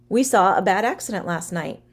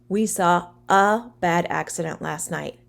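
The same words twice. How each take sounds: First: It is said more quickly. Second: It is said at a normal, slower pace.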